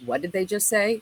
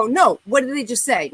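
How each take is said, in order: First: Said in the usual way. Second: Louder, pressing demand; insistent demand. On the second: Retold or imitated. Young woman at red light demanding what the guys said, louder insistent. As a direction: push the question hard, not letting it go. She insists, ready to confront.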